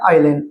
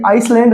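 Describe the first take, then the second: First: No s sound is heard in the middle. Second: An s sound is heard in the middle. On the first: The speaker calls it right. "ये क्या बोला जाएगा आइलैंड" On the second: The speaker calls it wrong. "तो यहाँ पे आइसलैंड नहीं है"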